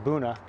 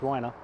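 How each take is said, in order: First: The word starts with a 'byoo' sound. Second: The word starts with a 'bway' sound. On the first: This is how locals say it. The speaker calls it right. "that's the way they pronounce it. They pronounce it Buna" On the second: This is not how locals say it. The speaker calls it wrong. "not Buena"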